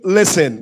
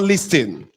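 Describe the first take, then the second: First: The T sound is left out. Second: The T sound is pronounced. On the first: The speaker calls it right. "So you say listen ... Letter T is silence" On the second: The speaker calls it wrong. "not listen"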